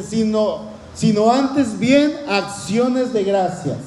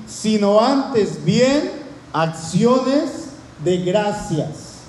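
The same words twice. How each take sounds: First: Said in the usual way. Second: "Sino antes bien" then "acciones de gracias" drawn out very slowly, each word weighed; slow emphatic reading. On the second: Shown as a demonstration. Preacher lingering over the verse's key phrase, very slow and weighty. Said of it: "si cortamos este versículo para que quede solamente esta parte".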